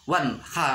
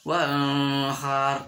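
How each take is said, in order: First: The n sound is pronounced distinctly. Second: The n sound is blurred, not distinct. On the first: The speaker calls it right. "harus jelas nun mati" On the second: The speaker calls it wrong. "nggak boleh dibaca"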